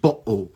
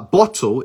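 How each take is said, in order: First: The middle T is replaced by a glottal stop. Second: The middle T is pronounced as a clear T. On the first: "eles fazem uma pausa" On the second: "Ao invés de pronunciar o T, eles fazem uma pausa"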